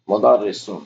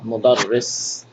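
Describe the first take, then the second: First: The r sound is short and single. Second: The r sound is held long and doubled. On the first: The speaker calls it wrong. "you have to forgive me sometimes on my pronunciations" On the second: The speaker calls it right. "this should be a uh, shadda"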